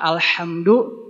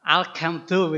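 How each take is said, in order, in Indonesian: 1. Konsonan tengahnya bunyi H berdesah. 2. Konsonan tengahnya bunyi K keras.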